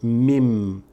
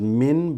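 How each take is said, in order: First: The word ends with an m sound. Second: The word ends with an n sound. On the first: The speaker calls it right. "but as mim" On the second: The speaker calls it wrong. "You're reading not as min"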